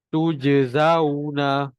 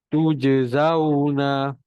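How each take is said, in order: The two takes are said the same way.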